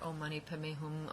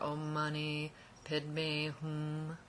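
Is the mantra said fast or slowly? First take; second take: fast; slowly. First: The mantra is said quickly. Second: The mantra is said slowly. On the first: "If we were to say this really, really fast" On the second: "when we slow it down"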